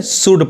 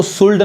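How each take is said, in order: First: "शुड" with no L sound; silent L. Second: "शुल्ड" with the L sounded; wrong pronunciation. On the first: Teacher correcting learners, "शुड" with silent L. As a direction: say "शुड", vowel straight into D. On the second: Teacher showing learners what to avoid, "शुल्ड" with sounded L. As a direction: say "शुल्ड", pronouncing the L before D. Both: Shown as a demonstration. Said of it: "शुल्ड नहीं करके शुड पढ़ेंगे".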